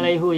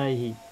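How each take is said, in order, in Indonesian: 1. Kata ini diakhiri dengan vokal 'u'. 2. Kata ini diakhiri dengan vokal 'i'. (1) "Tidak ada alaihu" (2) "yang ada adalah alaihi"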